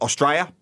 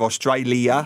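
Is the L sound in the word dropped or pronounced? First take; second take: dropped; pronounced. First: The L sound is dropped. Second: The L sound is clearly pronounced. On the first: "There's L's dropped a lot. Australia" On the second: "instead of Australia"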